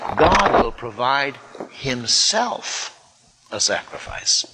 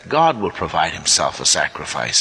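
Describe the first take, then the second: First: The stress falls on the word himself. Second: The stress falls on the word provide.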